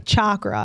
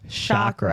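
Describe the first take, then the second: First: The word begins with a hard ch sound. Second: The word begins with a soft sh sound. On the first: This is how other people say it. "I hear people say chakra" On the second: This is how the speaker says it. "I pronounce it sh- chakra"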